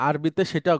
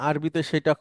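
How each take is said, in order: The two takes are said the same way.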